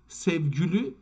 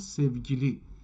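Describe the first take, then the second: First: The word ends in an 'oo' vowel. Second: The word ends in an 'ee' vowel. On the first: This is the form used in Azerbaijan and Ardabil. "سوگلو ما میگیم الان در آذربایجان" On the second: This is the form not used there. "نه سوگلی"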